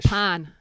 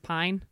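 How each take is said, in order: First: The vowel is a flat, drawn-out ah sound. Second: The vowel is a full eye glide. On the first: "It's more like an A" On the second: "versus pine"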